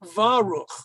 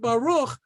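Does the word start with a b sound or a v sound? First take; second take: v sound; b sound. First: The word starts with a v sound. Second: The word starts with a b sound. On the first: "The dot drops out because of the vowel sound in front of it" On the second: "It has to be a B"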